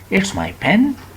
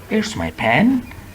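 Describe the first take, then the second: Both takes have the same delivery.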